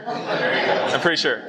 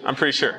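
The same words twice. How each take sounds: First: Slow, chuckling through it; laughing. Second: Said in the usual way. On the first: Real, not acted. Repeats the joke to the teen boys, laughing. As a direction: laugh at your own excuse. Joking about the altitude.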